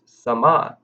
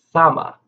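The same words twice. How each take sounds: First: Sama, slow, leaning on the second syllable MA; stress on second syllable. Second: Sama, punching the first syllable SA loud and high; stress on first syllable. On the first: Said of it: "We emphasize the second syllable". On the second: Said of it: "we emphasize the first syllable". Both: Shown as a demonstration.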